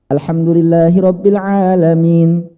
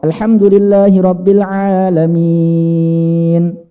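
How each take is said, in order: First: The final long vowel is held briefly. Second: The final long vowel is held very long. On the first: "boleh dibaca dua" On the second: "enam harokat"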